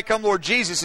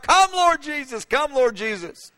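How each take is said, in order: First: Said in the usual way. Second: High cry, then slowing down; John laying the pen down to cry out; fervent cry fading into plea. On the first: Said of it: "That cry". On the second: Retold or imitated. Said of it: "he begins to cry out".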